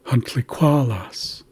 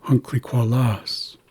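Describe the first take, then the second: First: "huncliqualas" with QUA stressed, slowly; stress on third syllable. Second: "huncliqualas" with LAS stressed; stress on last syllable. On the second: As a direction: draw out the final "las" of "huncliqualas". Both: Shown as a demonstration. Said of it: "placing emphasis in the word".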